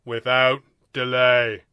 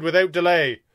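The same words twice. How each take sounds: First: "Without delay" very slow and loud; emphasized. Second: Said in the usual way. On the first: A narrator's reading. First alien insisting on the rule, emphasizing "Without delay". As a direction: drag out "Without delay", landing hard on each word. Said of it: "the first voice emphasized".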